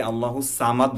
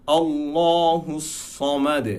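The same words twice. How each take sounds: First: আল্লাহু সামাদ with thin s and dead "t" end; common wrong reading. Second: Slow chanted আল্লাহু সমাদ, heavy "law" and "saw"; sung, draw out আল্লাহু, bounce সমাদ's final "de"; sung, correct recitation. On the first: Teacher quoting many readers, light সামাদ. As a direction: say সামাদ with light "saa", no echo. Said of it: "এখানে আমরা অনেকে আল্লাহু সামাদ বলি". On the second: Teacher demonstrating the verse, slow chanted recitation. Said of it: "সেখানে হবে". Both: Shown as a demonstration.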